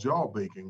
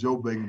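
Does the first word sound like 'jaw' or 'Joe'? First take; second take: jaw; Joe. First: The first word sounds like 'jaw'. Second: The first word sounds like 'Joe'. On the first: This is the proper name. "it's called jaw bacon, really" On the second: This is the everyday local name. "we call it"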